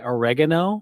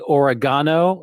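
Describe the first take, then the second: First: It is said with an American accent. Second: It is said with a British accent. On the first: "we say oregano" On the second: "in the U K they say oregano"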